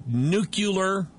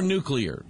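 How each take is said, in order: First: Nuclear with the folksy "-kyuh-ler" ending; nuclear said "nucular". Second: Nuclear with a "-klee-er" ending; nuclear said standard. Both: Shown as a demonstration. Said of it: "if you say nuclear or nuclear".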